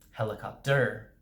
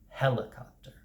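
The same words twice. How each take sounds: First: The stress is on a later syllable. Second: The stress is on the first syllable. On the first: The speaker calls it wrong. "if you say the stress on the wrong syllable, it sounds weird" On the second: The speaker calls it right. "the first syllable gets the most pronunciation or the most full stress"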